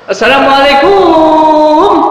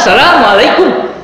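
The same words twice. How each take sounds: First: The final syllable is drawn out long. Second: The final syllable is kept short. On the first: The speaker calls it wrong. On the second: The speaker calls it right.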